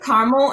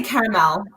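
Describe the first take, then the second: First: Caramel said 'CAR-mul'; caramel shortened to CAR-mul; two-syllable caramel. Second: Caramel in three syllables, 'CARE-a-mel'; own way of saying caramel. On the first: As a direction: say caramel like the town Carmel. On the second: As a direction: say caramel with a full final 'mel'. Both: Shown as a demonstration. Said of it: "and I say caramel".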